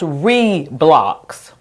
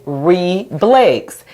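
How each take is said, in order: First: "re-blocks" slowly, first syllable "ree", then short "blocks"; long open E. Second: "re-blakes" slowly, "ree" then "blex" in separate syllables; changed closed vowel. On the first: Teacher changing Roblox's first vowel, "re-blocks" with a long E. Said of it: "it would be pronounced". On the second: Teacher changing Roblox's second vowel, "re-blakes" split as ree-blex. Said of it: "E in the closed syllable". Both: Shown as a demonstration.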